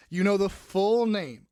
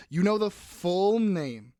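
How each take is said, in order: Both takes have the same delivery.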